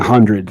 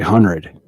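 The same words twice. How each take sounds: First: All consonants in the word are clearly pronounced. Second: A consonant in the middle is swallowed. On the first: The speaker calls it right. "like it's supposed to be said" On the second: The speaker calls it wrong. "You're swallowing the consonant"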